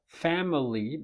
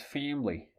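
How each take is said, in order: First: All sounds in the middle are pronounced. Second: One middle sound is left out.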